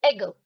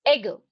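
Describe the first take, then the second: Both takes have the same delivery.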